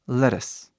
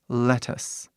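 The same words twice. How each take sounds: First: Said quickly with a tapped r-like middle sound. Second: Said slowly with a clear, crisp t sound. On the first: "rápido"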